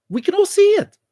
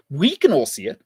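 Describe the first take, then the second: First: "We can all see it." jumped much higher, exasperated; "We can all see it." squeaked high with frustration; exasperated high repeat. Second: Said in the usual way. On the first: Real, not acted.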